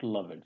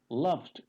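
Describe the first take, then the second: First: The ending is said as an extra syllable. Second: The ending is a plain final d sound. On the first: The speaker calls it wrong. "it's not loved" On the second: The speaker calls it right. "it's loved ... E is silent here"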